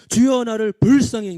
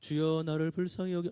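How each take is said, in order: First: It is said with strong accents. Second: It is said flatly, without accents.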